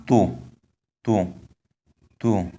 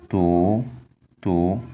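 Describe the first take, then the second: First: To with the tone on the first vowel. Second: To with the tone on the second vowel. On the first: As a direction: put the tone at the start of to. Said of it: "the tone is on the first vowel". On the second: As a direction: put the tone at the end of to. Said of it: "tone is on the second vowel". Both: Shown as a demonstration.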